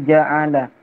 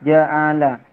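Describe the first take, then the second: Both takes have the same delivery.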